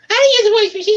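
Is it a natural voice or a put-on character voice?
put-on. It is said in a put-on Fozzie Bear-like voice.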